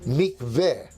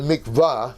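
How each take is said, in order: First: The last vowel sounds like 'eh'. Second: The last vowel sounds like 'ah'. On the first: The speaker calls it right. "which in Hebrew is pronounced eh. So the real pronunciation is mikveh" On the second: The speaker calls it wrong. "You call it a mikvah"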